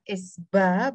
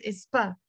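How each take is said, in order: First: "Es ba" with a voiced b; said as written. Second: "Espa" with a p in place of b; crisp p in "Espa"; said as pronounced. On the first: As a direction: sound out Es ba with b, not p. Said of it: "write it with a ba". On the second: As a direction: say Espa as one unit with a p. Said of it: "we will pronounce it Espa". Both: Shown as a demonstration.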